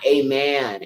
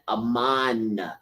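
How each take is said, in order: First: The second syllable sounds like 'men'. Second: The second syllable sounds like 'man'. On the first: It names a pagan deity. The speaker calls it wrong. "Not amen" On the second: It avoids naming a pagan deity. The speaker calls it right. "I say Aman. A M A N"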